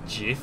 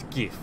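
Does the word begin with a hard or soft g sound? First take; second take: soft; hard. First: The word begins with a soft g sound. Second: The word begins with a hard g sound. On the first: The speaker calls it wrong. "it's supposed to be pronounced as GIF, but I completely disagree" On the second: The speaker calls it right. "As in, you gift with a T on the end"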